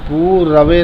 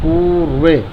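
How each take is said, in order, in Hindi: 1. र पूरे अक्षर की तरह बोला जाता है। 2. र आधे व्यंजन की तरह बोला जाता है। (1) "पूरवे नहीं बोलेगा कोई, ... रा जो है वो पूरा हो जाता है" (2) "इसे बोलेंगे र को आधा"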